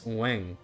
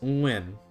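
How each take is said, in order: First: It is said with a central Hue pronunciation. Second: It is said with a northern Hanoi pronunciation. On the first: "in the Hue, it's Nguyen with a ng at the end, and the tones are different" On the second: "in the Hanoi pronunciation"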